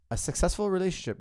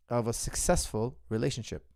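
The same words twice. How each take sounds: First: "successful" lifted high and leaned on; stressed repeat. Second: Said in the usual way. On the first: Shown as a demonstration. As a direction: repeat "A successful relationship" to drive it home, pitch up on "successful".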